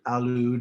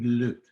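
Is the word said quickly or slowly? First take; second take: slowly; quickly. First: The word is said slowly with both syllables. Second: The word is said quickly as one syllable.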